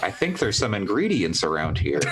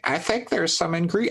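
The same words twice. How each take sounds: First: Said in the usual way. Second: High, slow attempt at Donald Duck. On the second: Shown as a demonstration. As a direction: try a squawky cartoon duck voice. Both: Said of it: "I can't do Donald Duck voice".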